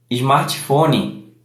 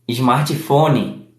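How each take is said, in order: First: It is said with a Brazilian Portuguese accent. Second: The same.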